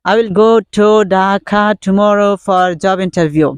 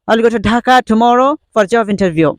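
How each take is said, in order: First: The sentence is said slowly, word by word. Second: The sentence is said fast, words run together. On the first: "প্রথমে এরকম ভাবে আস্তে আস্তে বলি" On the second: "তারপর কয়েকবার জুড়ে জুড়ে বলার চেষ্টা করি।"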